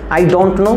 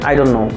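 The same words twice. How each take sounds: First: Each word is said fully and separately. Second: The words are run together and sounds dropped.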